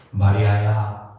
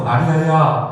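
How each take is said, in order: First: Low, slow, tender calling of a name; tenderly drawn-out, low-pitched call; very warm call. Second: Said in the usual way. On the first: Acted. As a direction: call to her gently and slowly. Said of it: "너무나 따뜻하게 부릅니다".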